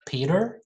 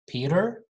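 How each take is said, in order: Both takes have the same delivery.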